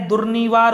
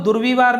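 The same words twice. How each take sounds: First: दुर्निवार with a clear "ni" in the middle; the corrected दुर्निवार, durnivaar; correct form. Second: दुर्विवार with a "vi" in the middle; the mistaken दुर्विवार, durvivaar; wrong form. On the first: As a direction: say दुर्निवार, n sound in place of v. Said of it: "दुर्निवार होता है". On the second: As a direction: say दुर्विवार, v sound in place of n. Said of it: "दुर्विवार नहीं होता है". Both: Shown as a demonstration.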